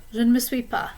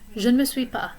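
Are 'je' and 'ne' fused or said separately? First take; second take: fused; fused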